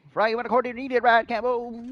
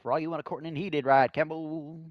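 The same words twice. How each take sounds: First: Sing-song raised repeat; higher, louder repeat. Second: Said in the usual way. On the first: Shown as a demonstration. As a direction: say it again up high and louder. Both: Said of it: "repeats line louder".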